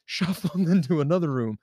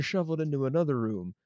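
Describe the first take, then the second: First: "Shuffled" re-said with a clear f sound; careful f in "Shuffled" after a slip; corrected shuffled. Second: "shuffled" slipped into "shoveled", with a v sound; accidental v sound in "shuffled"; mispronounced shuffled. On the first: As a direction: correct yourself, giving "Shuffled" an f, not a v. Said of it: "Shuffled, not shoveled". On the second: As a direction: say "shuffled" with a v in place of the f. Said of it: "not shoveled". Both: Real, not acted.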